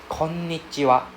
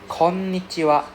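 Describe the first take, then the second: The two takes are said the same way.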